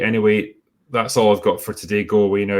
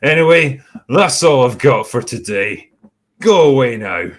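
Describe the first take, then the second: First: It is said in his normal voice. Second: It is said in a slurred, drunk voice.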